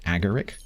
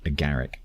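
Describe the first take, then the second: First: The stress is on the first syllable. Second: The stress is on the second syllable. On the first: "Is it first syllable" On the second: "second syllable?"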